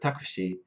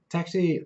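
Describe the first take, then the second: First: It is said with Japanese katakana sounds. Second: It is said with English sounds. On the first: The speaker calls it wrong. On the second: The speaker calls it right.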